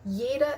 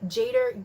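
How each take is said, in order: First: The word begins with a 'y' sound. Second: The word begins with an English 'j' sound. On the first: The speaker calls it right. "letter J is pronounced as Y" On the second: The speaker calls it wrong. "don't go up to your German friends and be Jader"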